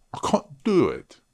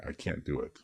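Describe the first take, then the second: First: High put-on British accent. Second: Said in the usual way. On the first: Tutor showing he can't do the accent, mock British accent. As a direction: say it high, in exaggerated British English. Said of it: "I'm not mocking the British accent". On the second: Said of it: "I'm just saying I can't do it".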